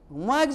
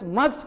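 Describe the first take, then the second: First: The word ends with a z sound. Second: The word ends with an s sound. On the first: The speaker calls it right. "होनी चाहिए" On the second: The speaker calls it wrong. "मग्स कहेगा"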